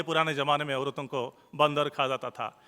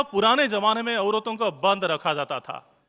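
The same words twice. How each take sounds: First: बंदर run as one word, then खा; lower, misreading it as बंदर, pause, खा जाता था; misread word grouping. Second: बंद and रखा as two words, "shut" then "kept"; correct word grouping. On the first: Retold or imitated. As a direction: join the र onto बंद to make बंदर, then खा. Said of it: "पढ़ दिए". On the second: Shown as a demonstration. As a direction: split it as बंद, रखा, not बंदर खा. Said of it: "line था".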